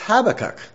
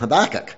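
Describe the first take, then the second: First: The stress is on the first syllable. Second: The stress is on the second syllable. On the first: The speaker calls it right. "the emphasis is on the first syllable. So that means we have been doing it right" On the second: The speaker calls it wrong. "Sounds more like a sick Scotsman that's trying to say something and getting it caught"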